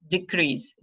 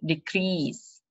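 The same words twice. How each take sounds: First: "Decrease" as the noun, DE-crease; first-syllable stress. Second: "decrease" as the verb, de-CREASE; last-syllable stress. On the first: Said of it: "on the first syllable". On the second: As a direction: lean on the end of "decrease". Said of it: "The stress is on the last". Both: Shown as a demonstration.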